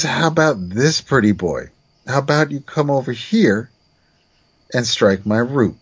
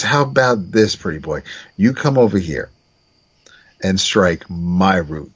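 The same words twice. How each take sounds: First: Clumsy first take of the line; wrong emphasis. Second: Sly taunting second take; corrected emphasis. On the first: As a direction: stress landing on the wrong words. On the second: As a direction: whisper the last words as a taunt. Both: Shown as a demonstration. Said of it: "the emphasis is all wrong here".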